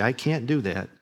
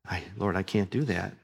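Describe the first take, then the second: First: Said in the usual way. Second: Soft, lower mock-timid "I can't do that"; meek excuse. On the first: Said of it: "When you say". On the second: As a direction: shrink back as you say "I can't do that". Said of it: "all kinds of excuses".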